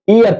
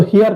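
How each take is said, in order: First: The word begins with a vowel sound. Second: The word begins with an h sound. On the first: The speaker calls it right. "एयर कहते हैं" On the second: The speaker calls it wrong. "इसको हेयर नहीं कहते हैं"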